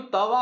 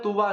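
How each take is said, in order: First: Said in the usual way. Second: तुवा with an "u" in the first syllable; nonstandard तुवा. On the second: Shown as a demonstration. Teacher showing students what some people say, तुवा with a "tu" start. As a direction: say तुवा, first vowel as in "put". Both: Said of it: "कुछ लोग तुवा बोलते हैं".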